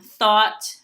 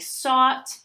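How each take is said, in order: First: The word begins with a th sound. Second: The word begins with an s sound.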